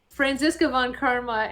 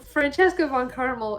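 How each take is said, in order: First: The surname ends in an 'a' sound. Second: The surname ends in an 'l' sound. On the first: The speaker calls it right. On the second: The speaker calls it wrong.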